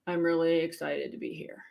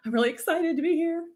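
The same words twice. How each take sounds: First: Softer, lower, unconvinced; unconvincing excitement. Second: Higher, brighter excited take; mean it this time; genuine excitement. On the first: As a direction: say it like you don't mean it. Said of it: "Do you believe me with this face?". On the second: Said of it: "it doesn't have to be over the top". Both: Shown as a demonstration.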